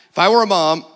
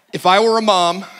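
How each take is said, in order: Both takes have the same delivery.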